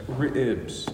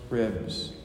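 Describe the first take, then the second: First: "Ribs" split into two syllables, ri-ibs. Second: Said in the usual way. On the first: Shown as a demonstration. Preacher teaches congregation Southern barbecue word, "Ribs" in two syllables. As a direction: say "Ribs" with a break in the middle of the vowel. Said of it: "There's a break there". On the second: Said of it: "It's not, there's two syllables to ribs".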